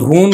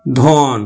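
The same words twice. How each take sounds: First: ধন said with closed o, ধোন; wrong o-kar pronunciation. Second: ধন with long open ɔ, dhɔn; correct open vowel. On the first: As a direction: round the vowel of ধন to dhon. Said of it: "আমরা ধন বলি না". (ভুল ও-কারে ধোন) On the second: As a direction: keep ধন open, no o-kar. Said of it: "ধনে উচ্চারণ হবে". (অবিকৃত অ দিয়ে ধন) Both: Shown as a demonstration.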